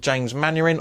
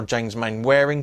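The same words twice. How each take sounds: First: "Mainwaring" said as MAN-er-ing; Mannering pronunciation. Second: "Mainwaring" said as MAIN-wair-ing; as-spelt pronunciation. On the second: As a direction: sound out "Mainwaring" as main plus wearing. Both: Shown as a demonstration. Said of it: "depending on your pronunciation".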